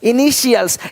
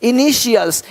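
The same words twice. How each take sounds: First: The middle consonant is a sh sound. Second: The same.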